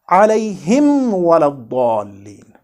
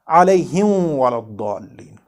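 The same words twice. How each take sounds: First: The m is pronounced clearly before the w. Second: The m is merged into the following w. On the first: The speaker calls it right. "We have to read it as" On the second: The speaker calls it wrong. "and not"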